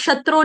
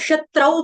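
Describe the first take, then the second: First: The word ends with a short 'u' vowel. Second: The word ends with an 'au' diphthong. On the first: The speaker calls it wrong. "इसको कोई भी शत्रु नहीं पड़ेगा" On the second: The speaker calls it right. "इसको शत्रौ पढ़ेंगे"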